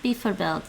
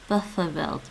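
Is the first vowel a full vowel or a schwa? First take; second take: full vowel; schwa. First: The first syllable has a full vowel. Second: The first syllable has a schwa vowel. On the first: The speaker calls it wrong. "It's not bijvoorbeeld" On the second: The speaker calls it right. "It's bijvoorbeeld"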